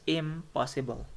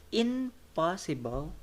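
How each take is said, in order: First: "impossible" with m before the p; n turned to m in "impossible"; assimilated IMPOSSIBLE. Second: "Impossible" said slowly as "in-possible", with n; higher, separated "in-possible" for "Impossible"; unassimilated INPOSSIBLE. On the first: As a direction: lips closed for m in "impossible". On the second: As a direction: keep an n before the p in "Impossible". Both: Shown as a demonstration. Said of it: "the n turns to mo".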